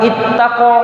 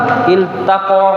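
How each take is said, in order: First: The L merges into a doubled T sound. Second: The L is pronounced clearly before the T. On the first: The speaker calls it wrong. "tidak tidak kita katakan ittaqa" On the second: The speaker calls it right. "dia dibaca izhar"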